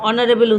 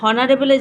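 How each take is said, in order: First: The word begins with a vowel sound. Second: The word begins with an h sound. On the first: "অনারেবল উচ্চারণ করেছি" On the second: "হনারেবলের জায়গায়"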